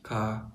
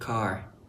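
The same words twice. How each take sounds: First: The final R sound is dropped entirely. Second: The final R sound is clearly pronounced.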